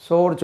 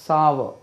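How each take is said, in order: First: சோர் like "sore", long o; mispronounced சோர், rhyming with "floor"; wrong pronunciation. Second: Sour as "SAA-va", long open a; correct pronunciation. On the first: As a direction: say சோர் as one syllable with "oh". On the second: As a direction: say sour in two syllables, "sow-uh". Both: Shown as a demonstration. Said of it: "சோர் சொல்லக்கூடாது".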